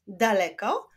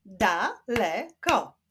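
First: Said in the usual way. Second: "Daleko" slowly split as da, le, ko; syllable by syllable. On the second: Shown as a demonstration. Teacher showing syllables to pupils, "Daleko" split in three. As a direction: clap out "Daleko" in three slow beats. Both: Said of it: "Wyklaszczmy sylaby w tych wyrazach".

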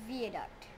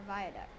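First: Viaduct with a "vee" first syllable; Viaduct pronounced VEE-uh-duct. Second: Viaduct with a "vye" first syllable; Viaduct pronounced VY-uh-duct. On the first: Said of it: "or Viaduct". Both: Shown as a demonstration.

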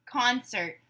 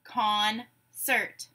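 First: Said in the usual way. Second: "Concert" split in two, pause between syllables. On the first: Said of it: "You say the whole word". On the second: Shown as a demonstration. Teacher gives syllables to blend, "Concert" broken apart. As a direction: say "Concert" slowly as con, pause, cert. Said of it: "I will say syllables in a word".

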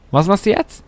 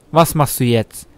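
First: High sing-song question rising on du; teasing taunt. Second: Said in the usual way. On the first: Acted. Gamer teasing the computer opponent, high mocking.

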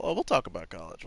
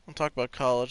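First: Lower, mock-ominous "talk about college"; mock threat. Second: Said in the usual way. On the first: Shown as a demonstration. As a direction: say it like a looming parent threat.

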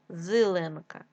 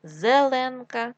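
First: Зеленка said as зиленка; short i after З in зеленка; и in first syllable. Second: Said in the usual way. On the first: Shown as a demonstration. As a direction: make зеленка start with зи. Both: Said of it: "зелений".

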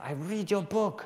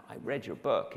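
First: High, slow imitation of an Argentinian fan; Argentinian accent. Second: Lightly imitated American lady caller; American accent. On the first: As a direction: put on a broad Argentinian accent, pitched up. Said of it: "Sorry about the accent". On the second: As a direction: put on an American accent for a fan. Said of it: "lady with an American accent".

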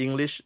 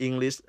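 No difference in how they are said.

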